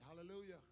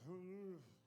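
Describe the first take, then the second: First: It is spoken clearly and normally. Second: It is spoken slurred, like a numbed mouth.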